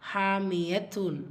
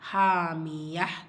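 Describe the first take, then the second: First: The word ends with a full tun syllable. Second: The word ends with a soft breathy h. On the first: "ஹாமியத்தூன் அப்படி இருக்குது" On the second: "ஆட்டோமேட்டிக்காக ஹா சாக்கினா நம்ம மாற்றி தான் ஓதுவோம்"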